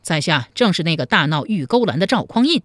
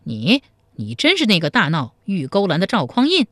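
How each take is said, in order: First: A hint of swagger, calm and sure; proud reply. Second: A touch of disbelief, voice catching on 你; startled question. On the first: Hero confirms his fame to the officer, mildly proud. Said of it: "赵匡胤傲声傲气地说". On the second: Officer startled to meet the famous brawler, mildly shocked question. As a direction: stammer out the name in mild shock. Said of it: "黄面汉子吃了一惊". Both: A narrator's reading.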